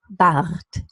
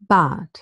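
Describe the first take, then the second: First: The R is trilled at the back of the throat. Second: The R becomes a vowel sound. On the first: "And now with the trill" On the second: "replacing the R by a deep schwa"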